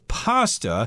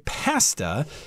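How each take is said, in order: First: It is said the American, Italian-like way. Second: It is said the Canadian or British way. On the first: "the American pronunciation is pasta" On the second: "Canadians and I believe some Brits, they'll say pasta because I guess that's what it looks like"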